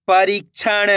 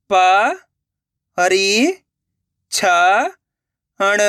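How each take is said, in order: First: Slow, stretched reading of the whole word; joined-up word. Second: Syllable by syllable. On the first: Teacher showing learners the finished word, slowly joined up. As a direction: blend the syllables into one drawn-out word. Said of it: "तो मिलके बन जाएगा". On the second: Teacher sounding out a word for learners, syllable by syllable. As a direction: separate drawn-out syllables with long gaps. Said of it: "एक एक अक्षर का उच्चारण करके". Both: Shown as a demonstration.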